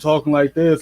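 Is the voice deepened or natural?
deepened. The voice is made artificially deeper. He is putting on a voice for interviews.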